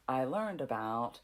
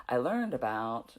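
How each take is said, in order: Both takes have the same delivery.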